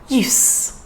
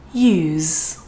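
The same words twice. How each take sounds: First: The word ends with a voiceless S sound. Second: The word ends with a voiced Z sound. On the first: The word is used as a noun. "that would sound like S. That's the voiceless sound" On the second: The word is used as a verb. "we're going to use the Z sound for the letter S"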